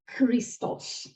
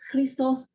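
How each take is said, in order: First: The first consonant is an aspirated voiceless stop. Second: The first consonant is not an aspirated stop. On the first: The speaker calls it right. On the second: The speaker calls it wrong.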